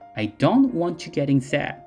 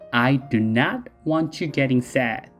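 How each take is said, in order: First: It is said plainly at normal speed. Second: It is said slowly with strong emphasis.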